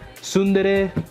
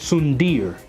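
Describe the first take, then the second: First: The word ends in two syllables, 'deh-reh'. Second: The word ends in a single 'deer' syllable. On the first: The speaker calls it right. "it's actually dere" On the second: The speaker calls it wrong. "I used to actually pronounce it sundir"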